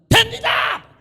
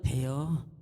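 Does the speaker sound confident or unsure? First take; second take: confident; unsure. First: It is said boldly and confidently. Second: It is said timidly and without confidence.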